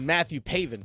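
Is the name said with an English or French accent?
English. The name is said with an English accent. "as opposed to"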